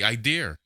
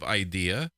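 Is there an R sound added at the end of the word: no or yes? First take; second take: yes; no. First: The word ends with an added R sound. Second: The word ends in a plain vowel. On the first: "you can put them in places where you don't even need them" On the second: "instead of idea"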